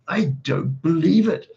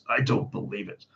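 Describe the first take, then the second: First: It is said as a Victor Meldrew impression. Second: It is said in the reader's character voice.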